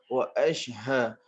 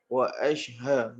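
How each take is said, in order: First: The sh and h are two separate sounds. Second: The same.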